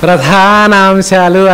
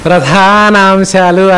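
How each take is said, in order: First: The word is said with a careful pronunciation. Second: The same.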